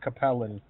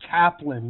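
First: The name is said with three syllables. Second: The name is said with two syllables. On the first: The speaker calls it wrong. "not Capellan" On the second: The speaker calls it right. "It's Kaplan"

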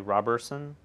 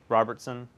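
First: The name has no T sound before the S. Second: The name has a T sound before the S. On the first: The speaker calls it right. "And you say Roberson?" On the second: The speaker calls it wrong. "I bet a lot of people put a T in there"

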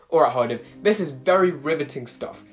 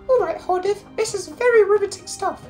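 First: It is said in a normal speaking voice. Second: It is said in a put-on high voice. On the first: "I'm not even doing the high voice anymore, like, it's actually hurting my throat" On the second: "I'm not even doing the high voice anymore"

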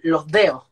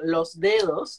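First: The s sound is aspirated like an h. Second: The s sound is fully pronounced. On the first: This is how Chileans say it. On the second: This is how others say it. "en vez de decir"

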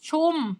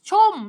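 First: The word is said on a level mid tone. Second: The word is said with a falling tone. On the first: "แต่ถ้าใส่เสียงสามัญก็คือ" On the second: "รูปเอกเสียงโท"

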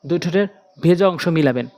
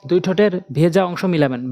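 No difference in how they are said.

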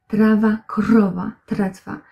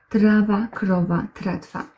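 No difference in how they are said.

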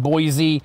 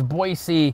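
First: It uses the newcomers' pronunciation of the name. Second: It uses the locals' pronunciation of the name. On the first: This is how newcomers to the area say it. The speaker calls it wrong. "the Californians are calling it Boise" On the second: This is how people who live there say it. The speaker calls it right. "but it's Boise"

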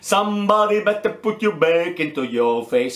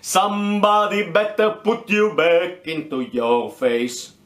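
First: The line is read at a normal pace. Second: The line is read at a slow pace.

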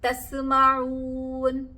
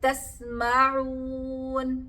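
First: The s is released with a bouncing echo. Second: The s is held still without a bounce. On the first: The speaker calls it wrong. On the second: The speaker calls it right.

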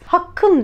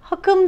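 First: The k sound is long and doubled. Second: The k sound is short and single. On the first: The speaker calls it right. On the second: The speaker calls it wrong.

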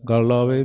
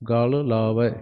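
First: The words run together with a single l sound. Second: The words are kept apart, with l said twice. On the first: The speaker calls it wrong. "ਗੱਲ ਆਵੇ ਨਹੀਂ ਕਹਿਣਾ" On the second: The speaker calls it right. "ਦੋਏ ਸ਼ਬਦ ਵੱਖ ਵੱਖ ਵੀ ਬੋਲਣੇ ਆ"

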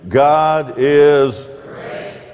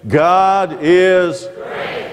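First: It is read out plainly, without extra force. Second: It is said with strong, energetic conviction.

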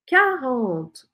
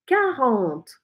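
The two takes are said the same way.

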